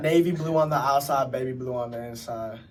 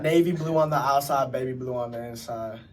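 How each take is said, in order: First: It is said in a put-on character voice. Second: The same.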